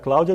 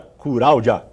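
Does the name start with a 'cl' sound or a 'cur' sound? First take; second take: cl sound; cur sound. First: The name starts with a 'cl' cluster. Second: The name starts with 'cur', with r replacing l. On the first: This is the native Portuguese pronunciation. "Você vai pedir para um oriental falar Cláudia" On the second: The speaker's language lacks this sound. "ele fala Curáudia"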